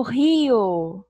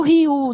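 First: "rio" slow, ending in a clear O; right ending. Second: "rio" ending in an U sound, like "riu"; wrong ending. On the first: Teacher showing children the correct ending, rio said with O. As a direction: slowly close "rio" on O. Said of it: "Eu falo rio". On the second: Teacher showing children the wrong ending, rio said as riu. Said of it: "não termina com U". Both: Shown as a demonstration.

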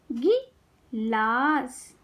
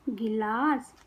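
First: गिलास very slowly, pause after गि; syllable by syllable. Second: Said in the usual way. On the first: Shown as a demonstration. Teacher teaching kids to read, syllables apart. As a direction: break गिलास into गि - लास. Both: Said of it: "शब्द पढ़ना सिखाऊंगी".

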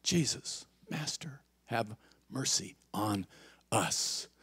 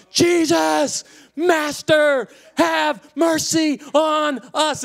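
First: Very soft, near-whispered plea; hushed prayer. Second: High, drawn-out shouted plea; loud crying out. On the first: Shown as a demonstration. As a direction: breathe each word of the prayer slowly. Quiet repeat of the six-word prayer. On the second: Acted. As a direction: yell it out like begging through a megaphone. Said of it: "yelled out in a loud voice".

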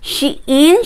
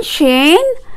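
First: Shein with a long ee, sheen. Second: Shein with a short e, shen. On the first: Unsure shopper trying Shein as sheen. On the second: Unsure shopper trying Shein as shen. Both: Shown as a demonstration. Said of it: "Hindi ko alam kung anong tamang pronunciation".

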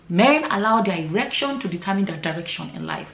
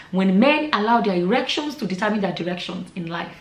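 First: Said in the usual way. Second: Slow deliberate proverb, stress on men; slow emphatic saying. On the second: Shown as a demonstration. Repeating a proverb to her viewers, slow and deliberate. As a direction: lay out the saying word by word, leaning on "men". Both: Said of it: "like we always say".

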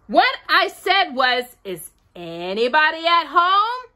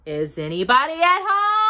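First: Calling very loudly. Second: High, rising call into a hole. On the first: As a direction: say it again, insistently, so they hear. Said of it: "Very loudly". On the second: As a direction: call to see who's in. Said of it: "called out". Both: A narrator's reading.

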